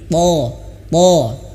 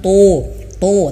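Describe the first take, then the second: First: The lips stay relaxed, without pouting. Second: The lips are pushed out in a pout. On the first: The speaker calls it right. "tapi to to" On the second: The speaker calls it wrong. "jangan sampai manyun"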